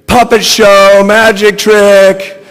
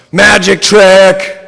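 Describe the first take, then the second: First: High, very loud squeal. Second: Slow, high, very loud shout. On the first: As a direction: squeal it, drawn out slow. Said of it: "the whole time squealing". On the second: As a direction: shriek it out drawn long. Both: A narrator's reading.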